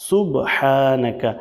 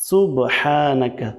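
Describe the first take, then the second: Both takes have the same delivery.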